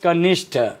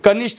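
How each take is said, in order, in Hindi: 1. अंतिम t ध्वनि श्वास के साथ बोली जाती है। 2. अंतिम t ध्वनि बिना श्वास के बोली जाती है। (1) "ये होता है कनिष्ठ" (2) "कनिष्ठ नहीं होता"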